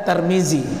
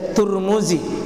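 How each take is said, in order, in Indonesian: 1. Suku kata pertama memiliki vokal a. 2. Suku kata pertama memiliki vokal u. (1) "tidak ada Tarmizi" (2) "bisa dibaca Turmuzi"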